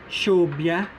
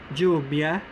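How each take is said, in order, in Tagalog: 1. Parang sh sa English ang tunog ng katinig. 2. Parang j sa English ang tunog ng katinig. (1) "The S H-like sound" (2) "The J-like sound"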